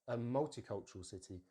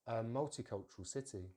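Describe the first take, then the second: Both takes have the same delivery.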